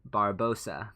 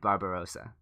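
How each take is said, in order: First: The name is said with one syllable missing. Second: The name is said with all four syllables.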